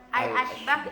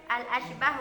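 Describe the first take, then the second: Both takes have the same delivery.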